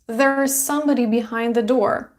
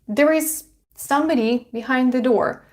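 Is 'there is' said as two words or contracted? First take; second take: contracted; two words. First: 'There is' is contracted into one syllable. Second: 'There is' is said as two full words. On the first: "You also can say there's, contraction" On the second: "Could you say it with me?"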